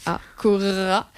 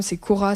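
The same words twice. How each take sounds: First: Cora with a long trilled R; rolled r. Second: Said in the usual way. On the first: Shown as a demonstration. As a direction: roll the R in Cora, slowly. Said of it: "treize fois la lettre R". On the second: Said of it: "Je sais pas si tu sais rouler les R".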